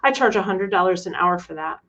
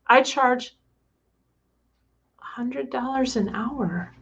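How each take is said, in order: First: It is said in a plain, assured voice. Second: It is said in a small, girlish voice.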